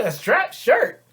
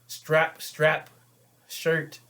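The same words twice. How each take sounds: First: STRAP SHIRT thrown back high and loud; incredulous echo. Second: Said in the usual way. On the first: Acted. Man hearing her complaint about "strap shirt", incredulous echo. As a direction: shoot up in disbelief on "strap shirt".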